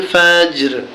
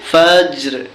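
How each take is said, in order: First: The word ends on a bare r sound. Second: The word ends on a bare r sound.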